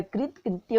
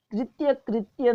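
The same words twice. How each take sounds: First: कृत कृत्य, only the second ending in "tya"; no first ya. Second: कृत्य, कृत्य both ending in "tya"; ya in both words. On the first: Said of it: "कृत कृत्य होता है". (कृत कृत्य में पहला "कृत" बिना य के) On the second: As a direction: say कृत्य, कृत्य as krit-ya krit-ya. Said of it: "नहीं होता है". (कृत्य, कृत्य दोनों में "य") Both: Shown as a demonstration.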